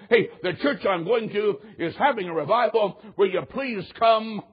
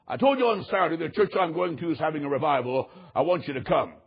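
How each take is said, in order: First: Retold pleading invitation. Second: Measured, matter-of-fact insistence, dropping low at the end; retold firm insistence. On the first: Boss invites his employees to the revival, pleading. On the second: Boss reminds his employees of Saturday's invitation, firmly insisting. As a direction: lay it down firmly, ending low.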